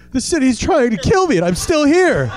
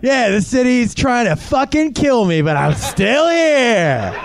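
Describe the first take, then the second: First: Higher, no swagger, quick short ending; prideless, dumb-sounding. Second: Proud boast, last words drawn out long; defiant pride. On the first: Same boast from someone who looks dumb, prideless. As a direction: say it haplessly up high, without boasting. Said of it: "if you say it like this". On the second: New Yorker boasting of surviving the city, proudly. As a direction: crow it, stretching the ending slowly. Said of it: "You have to say it with pride". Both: Acted.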